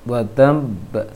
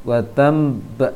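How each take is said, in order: Both takes have the same delivery.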